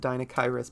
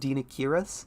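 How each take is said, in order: First: The middle syllable sounds like the name Kyra. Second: The middle syllable sounds like the name Kira. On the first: It plays on the name of the character. "Like it's Dinakyrus" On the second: This is the technically correct pronunciation. "technically Dinakyrus is supposed to be pronounced Dinakirus"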